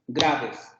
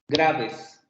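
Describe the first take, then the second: First: The stress is on the first syllable. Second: The stress is on the first syllable.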